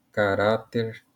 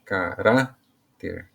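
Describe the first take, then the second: First: Said in the usual way. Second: CARÁTER slowly in pieces, ca... RÁ... ter; stress on RÁ. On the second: Shown as a demonstration. Teacher showing the strongest syllable, slow caRÁter. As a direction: break "caráter" into syllables, punching the middle rá. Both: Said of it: "A sílaba mais forte".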